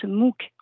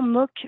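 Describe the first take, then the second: First: MOOC is pronounced with an English vowel sound. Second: MOOC is pronounced with a French vowel sound. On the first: "Le terme se prononce MOOC en anglais" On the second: "MOOC fait de la résistance en France"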